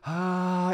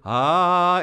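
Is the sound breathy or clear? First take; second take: breathy; clear. First: The sound is breathy with lots of escaping air. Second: The sound is clear with little escaping air. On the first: The vocal cords are not fully connected. "it's going to blow out the candle" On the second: The vocal cords are connected. "it's not going to blow out the candle"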